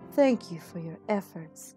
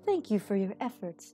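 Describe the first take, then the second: First: It is said in a lower voice. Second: It is said in Rabu's higher voice.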